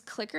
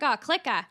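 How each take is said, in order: First: Said in the usual way. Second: Put-on Boston accent, louder, dropping the R; Mark Wahlberg. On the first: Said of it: "one of the words is clicker". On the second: Explaining slang in a video, imitated Boston accent. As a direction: say clicker as CLICK-AH in Boston. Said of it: "slips back into his natural Boston".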